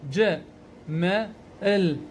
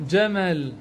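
First: "ج، م، ال" as slow, separate sounds; sounding out. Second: Said in the usual way. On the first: Shown as a demonstration. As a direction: break the word into "ج، م، ال" with pauses. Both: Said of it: "أقول ج".

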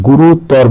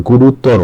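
First: গুরুতর ending on a bare r; dropped final vowel. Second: গুরুতর ending in "ro"; final o sound. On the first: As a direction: say গুরুতর with no o after the r. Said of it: "বলা যাবে না". (গুরুতর-এর শেষে ও ছাড়া হসন্ত র) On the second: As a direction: say গুরুতর with an o after the r. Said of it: "এই ওকারের মতো". (গুরুতর-এর শেষে ও-কার দিয়ে "রো") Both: Shown as a demonstration.

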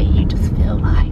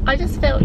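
First: Breathy whispered aside. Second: Said in the usual way. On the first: Real, not acted. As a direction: drop to a whisper mid-thought. Whispers the repeated phrase.

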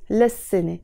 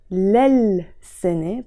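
First: "للسنة" as "las-sine", L merged into the S; assimilated L. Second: "للسنة" slowly as "lal-sine", the second L sounded; written pronunciation. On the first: Teacher showing students how "للسنة" is pronounced, as "las-sine". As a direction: say "للسنة" with a doubled S, no second L. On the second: Teacher showing students "للسنة" as spelt, L sounded. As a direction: stretch out "lal" in "للسنة", keeping its L. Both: Shown as a demonstration. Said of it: "pronounced as للسنة".

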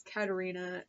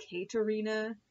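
First: "Katarina" starting with a short "Kat" sound; believed pronunciation. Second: "Katarina" starting with a long "Kay" sound; spelling pronunciation. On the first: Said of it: "I think it's Katarina". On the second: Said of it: "looks like it's spelled like". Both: Shown as a demonstration.

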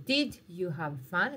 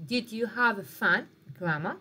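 First: Said in the usual way. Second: Slow, louder model question. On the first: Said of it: "دايمًا استعملوا". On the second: Shown as a demonstration. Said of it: "مثال يقول لك الانتيروغاتيف".

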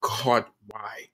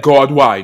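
First: Soft, hushed "God, why?" asked inwardly; inner question. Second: Louder, pressing "God, why?" as a challenge; defiant cry. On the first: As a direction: murmur "God, why?" under the breath as a private thought. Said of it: "in my head". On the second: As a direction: push "God, why?" out firmly, demanding an answer. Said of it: "I definitely said". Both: Retold or imitated.

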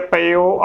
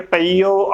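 First: ਪਈਓ shortened to "pa-yo"; no long ee in ਪਈਓ; next-line reading. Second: ਪਈਓ with long ee, "pa-ee-yo"; first-line reading. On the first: Teacher giving the next line's form, careful pronunciation. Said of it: "ਅਗਲੀ ਤੁਕ ਦੇ ਵਿੱਚ". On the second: Teacher giving the first line's form, careful pronunciation. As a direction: hold the ee in ਪਈਓ. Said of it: "ਪਹਿਲੀ ਤੁਕ ਦੇ ਵਿੱਚ". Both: Shown as a demonstration.

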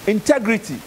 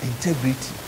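First: Integrity. raised as a new heading word; announcing the topic. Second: Integrity. repeated lower and softer, let it sink in; repeating it softly. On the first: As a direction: call out integrity. like a heading on the board. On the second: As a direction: drop your voice on Integrity. so it lands. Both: Shown as a demonstration. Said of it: "I'm sure we all understand integrity".

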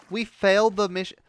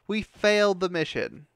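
First: High and loud, fuming; angry shout. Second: Slow, loud, dragging each word; slow seething repeat. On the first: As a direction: yell the failure out furiously. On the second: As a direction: spell it out slowly through the anger. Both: Real, not acted. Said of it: "I am very pissed".

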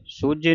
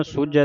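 First: ਸੂਝੇ ending in a close e; wrong final vowel. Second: ਸੂਝੈ ending in an open ai; open final vowel. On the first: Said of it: "ਸੂਝੇ ਨਹੀਂ ਪੜ੍ਹਨਾ". (ਸੂਝੇ, ਇੱਕ ਲਾਂ ਨਾਲ) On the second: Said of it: "ਦਲਾਵਾਂ ਦੇ ਨਾਲ ਉਚਾਰਨ ਹੋਣਾ". (ਸੂਝੈ ਦੁਲਾਵਾਂ ਨਾਲ) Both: Shown as a demonstration.

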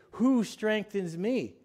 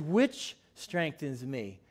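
First: The common misquote, "Who strengthens me?", unhurried; wrong word. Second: "Which strengthens me." said slowly and lower, stressing "Which"; correct word. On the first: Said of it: "I had to correct myself". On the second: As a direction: lean on "Which" to correct the quote. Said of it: "in my Bible, it says". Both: Shown as a demonstration.

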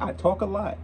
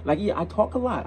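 First: Chuckling through the admission; laughing. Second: Said in the usual way. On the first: Real, not acted. Reactor laughing at himself to viewers, laughing. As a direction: laugh as you own up to it. Admitting he talks a lot.

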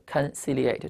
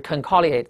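First: "conciliate" with a soft s for the second c, kon-SIL-ee-ate; correct reading. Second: "conciliate" with a hard k for the second c, kon-KIL-ee-ate; "conciliate" read wrongly with a hard k sound; hypothetical misreading. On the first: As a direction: say "conciliate" properly with the s sound. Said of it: "读一读啊". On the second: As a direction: say "conciliate" as if the middle c were a k. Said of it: "如果它读成conciliate". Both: Shown as a demonstration.

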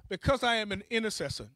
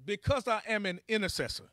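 The two takes are said the same way.

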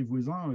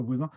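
First: "voisin" with a plain oral ending, vwazè, no nasal; teacher reading out "voisin" ending on a clean è sound; Picard spelling voisin. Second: "voisin" ending on a nasal in, vwazin as in French; teacher gives the other spelling, "voisin" closed with a nasal vowel. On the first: Teacher shows the written voisin, oral ending on "voisin". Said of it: "des fois c'est marqué voisin". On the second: Teacher contrasts the second spelling, nasal end on "voisin". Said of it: "et il y a des fois voisin". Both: Shown as a demonstration.

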